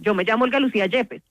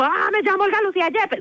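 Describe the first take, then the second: First: It is said in a firm, steady tone. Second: It is said in a weak, unsure tone.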